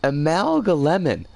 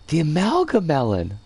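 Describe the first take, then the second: First: Amalgalemon said with lem before the end, am-AL-ga-lem-on; corrected name. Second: The Amalgamelon said with mel before the end, am-AL-ga-mel-on; The Amalgamelon stressed on mel, falling at the end; misread name. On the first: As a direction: say Amalgalemon as amalgam plus lemon. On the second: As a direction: read The Amalgamelon as amalgam plus melon. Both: Shown as a demonstration. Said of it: "I'm reading that wrong".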